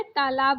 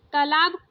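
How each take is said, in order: First: तालाब with a long taa; correct long first vowel. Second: तालाब with a short first a; wrong short first vowel. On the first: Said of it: "तालाब बोला जाता है". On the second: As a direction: say तालाब as "tuh-laab". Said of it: "तालाब नहीं बोला जाता है". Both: Shown as a demonstration.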